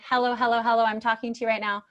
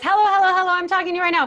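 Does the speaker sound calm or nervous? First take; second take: calm; nervous. First: It is said calmly with easy breathing. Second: It is said nervously with gasping breaths.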